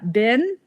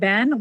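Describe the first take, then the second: First: The vowel is the traditional high short i. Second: The vowel is lowered, sounding close to Ben. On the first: "which has an I vowel traditionally" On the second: "more like Ben"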